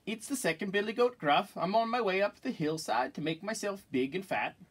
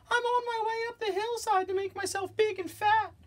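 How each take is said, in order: First: Middle-sized goat, high but no squeak; not so small voice. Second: Tiny falsetto billy goat; very small voice. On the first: Second goat answering the troll, moderately high voice. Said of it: "his voice was not so small". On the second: Smallest goat explaining himself to the troll, tiny high voice. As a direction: pipe it up very high, like the littlest goat. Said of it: "in his very small voice". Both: Acted.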